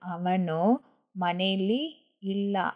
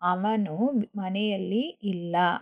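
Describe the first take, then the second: First: The word is shortened to 'maneli'. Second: The word is said in full as 'mane alli'.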